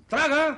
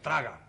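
First: Loud, high, sharp command; Traga! yelled at a stalling friend; shouted order. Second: Said in the usual way. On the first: Acted. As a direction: bark it at him. Urging friend to swallow, louder.

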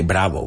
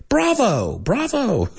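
First: "bravo" with a Spanish b-like v, flat. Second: "Bravo" with a clear English v, higher. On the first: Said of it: "We don't say". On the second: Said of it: "we say". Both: Shown as a demonstration.

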